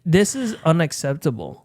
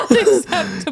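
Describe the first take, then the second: First: Deadpan. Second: High, laughing repeat of the line; laughing echo. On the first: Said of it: "And I was like". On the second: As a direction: echo it while cracking up. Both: Retold or imitated.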